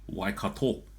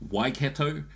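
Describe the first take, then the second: First: It is said with Māori vowel sounds. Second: It is said with English-style vowel sounds. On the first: The speaker calls it right. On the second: The speaker calls it wrong.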